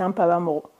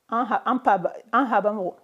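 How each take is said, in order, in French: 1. Les mots sont liés, ce qui donne un son p. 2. Le mot garde son son h, sans liaison.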